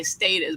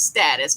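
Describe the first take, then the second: First: "status" with a long A, as in "state"; long-A "status", STAY-tus; alternative pronunciation. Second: "status" with a short A, as in "stat"; preferred pronunciation. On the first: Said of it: "as some people like to say status". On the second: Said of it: "but it's status". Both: Shown as a demonstration.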